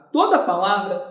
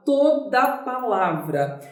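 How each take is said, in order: First: Said in the usual way. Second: "toda palavra" drawn out word by word; emphatic repeat. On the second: Shown as a demonstration. Teacher repeating a rule to students, emphatic repeat.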